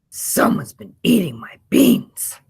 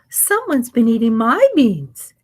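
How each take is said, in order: First: A deep, gruff, growling voice. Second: A mild, medium-pitched gentle voice.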